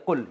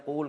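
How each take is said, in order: First: قل with a short u; short "qul" for قل, not drawn out; shortened vowel. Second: قول with a lengthened oo; long "qool" for قول; long vowel. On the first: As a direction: keep the vowel in قل brief. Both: Shown as a demonstration. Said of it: "قول کو بنا دیا قل".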